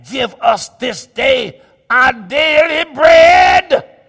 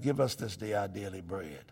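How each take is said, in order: First: "Give us this day our daily bread" shouted slow, landing hard on bread; loud proclaimed prayer. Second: "Give us this day our daily bread" said low and very soft; soft low prayer. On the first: Preacher proclaims the prayer to the church, slow and loud. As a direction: proclaim each word of the prayer slowly and loudly. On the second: Preacher quietly recites the prayer, low and soft. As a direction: murmur the prayer close and low. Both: Shown as a demonstration. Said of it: "prayer line repeated differently".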